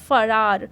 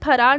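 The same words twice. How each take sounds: First: It starts with an f sound. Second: It starts with an aspirated ph sound. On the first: The speaker calls it right. "ये होता है फरार" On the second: The speaker calls it wrong. "लेकिन फरार नहीं होता"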